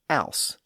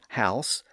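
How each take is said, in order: First: The word begins without any H sound. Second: The word begins with an audible H sound. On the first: "some people would have said ouse" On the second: "some people would have said house"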